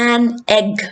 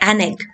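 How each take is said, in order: First: The word 'an' has a full vowel. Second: The word 'an' has a reduced vowel. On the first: "എടുത്തെടുത്ത് പറയാൻ" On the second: "so they say"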